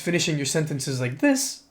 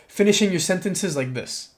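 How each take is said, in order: First: The voice rises to a higher pitch at the end. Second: The voice falls to a lower pitch at the end. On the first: The speaker sounds submissive. The speaker calls it wrong. "You can do it upspeaking" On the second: The speaker sounds more mature. The speaker calls it right. "or you can do it downspeaking"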